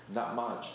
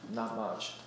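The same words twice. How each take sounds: The two takes are said the same way.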